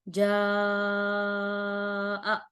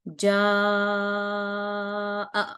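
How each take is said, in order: The two takes are said the same way.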